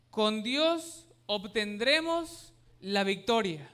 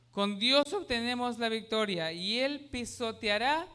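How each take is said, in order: First: "Dios" stressed, each word drawn out slowly; slow translated verse. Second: Said in the usual way. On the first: Shown as a demonstration. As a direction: read it slowly, leaning on "Dios". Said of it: "Traducido, dice".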